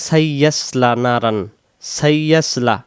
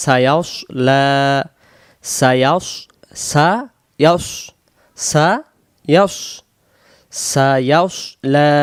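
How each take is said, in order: First: "সাইয়াসলা" with a doubled y and plain thin s; common mispronunciation. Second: "সায়াসলা" as sa-yaws-la, rounded heavy s; "সায়াস" slowly, with a full dark final s; correct heavy sad. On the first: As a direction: open flat a in "সাইয়াসলা", lips unrounded. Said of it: "আমরা ওরে বলি". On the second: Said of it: "এখানে উচ্চারণ হবে". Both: Shown as a demonstration.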